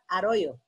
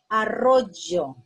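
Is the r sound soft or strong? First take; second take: soft; strong. First: The r is a soft, single sound. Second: The r is a strong, rolled sound.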